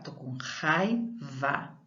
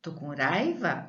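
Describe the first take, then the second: First: "raiva" slowly with a throaty initial R; slow teacher demo of the correct R; strong R. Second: "raiva" with a light tapped r; teacher questions the weak-R reading; weak R test. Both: Shown as a demonstration. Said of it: "É forte também".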